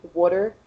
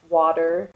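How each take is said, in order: First: "water" with a U-like first vowel, as in "wooder"; Eastern Pennsylvania "water". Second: "water" said with a D-like middle sound; Central Pennsylvania "water". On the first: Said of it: "with, like, a U instead of an A". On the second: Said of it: "I pronounce it with a D". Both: Shown as a demonstration.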